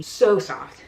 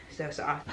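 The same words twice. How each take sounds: First: Louder, gushing over the softness; emphatic. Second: Softer echo. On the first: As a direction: lean hard into it. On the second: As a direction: repeat it softer, trailing off. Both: Shown as a demonstration.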